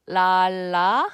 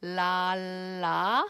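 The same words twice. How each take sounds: First: "La" much louder with a light tongue flap; loud clear "La" for the middle; mid-word Korean ㄹ. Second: "La" with a firm press behind the teeth; beginning-of-word "La"; word-initial Korean ㄹ. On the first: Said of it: "for the middle of the word". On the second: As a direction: initial "La" tapped firmly. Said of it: "for the beginning". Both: Shown as a demonstration.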